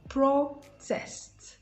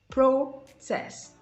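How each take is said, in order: First: The stress is on the first syllable. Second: The same.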